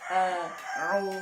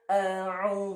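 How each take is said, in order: First: The two throat sounds are made separately. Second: The two throat sounds are merged into one. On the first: The speaker calls it right. "karena itu makhrajnya sendiri-sendiri" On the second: The speaker calls it wrong. "nggak boleh disambung dari satu begini"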